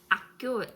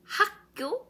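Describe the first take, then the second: First: The initial h sound is dropped. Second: The initial h sound is clearly pronounced. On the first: The speaker calls it wrong. "comme les Français, les personnes francophones euh, qui ne prononcent pas H" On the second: The speaker calls it right. "prononcez bien H"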